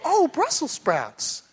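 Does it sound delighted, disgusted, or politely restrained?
delighted. It sounds happily pleased, like the wife.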